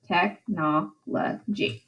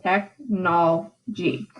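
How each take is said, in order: First: "Technology" slow and soft, tech-no-lo-gy; four separate syllables. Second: "Technology" slowly as tech-nol-gy, dropping the third vowel; three syllables. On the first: Teacher showing four syllables, slowly spaced "Technology". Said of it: "it has four syllables". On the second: Teacher shortening the word for meter, slow three-syllable "Technology". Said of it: "where we only have three syllables". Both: Shown as a demonstration.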